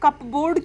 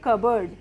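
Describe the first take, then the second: First: The p sound is pronounced in the word. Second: The p sound is left out of the word. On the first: The speaker calls it wrong. "इसको हम कपबोर्ड क्यों नहीं पढ़ेंगे" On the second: The speaker calls it right. "पी silent हो जाता है"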